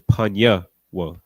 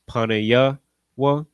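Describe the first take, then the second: First: The first word has two syllables. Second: The first word has three syllables. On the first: The speaker calls it right. "it's panya wa" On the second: The speaker calls it wrong. "instead of pronouncing it panaya wa"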